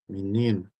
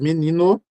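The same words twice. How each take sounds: First: The final vowel is pronounced like u. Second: The final vowel is pronounced like o. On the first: "se eu digo menino com a minha pronúncia final com "u"" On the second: "Se fosse menino, um "o""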